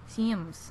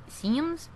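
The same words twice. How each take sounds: First: Falling, matter-of-fact "Sims."; settled Sims. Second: "Sims?" pitched high with a rise at the end; high rising "Sims?"; questioning Sims. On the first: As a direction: say "Sims." as a statement, going down. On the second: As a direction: say "Sims?" as a puzzled question, going up. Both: Real, not acted. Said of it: "That's my new accent".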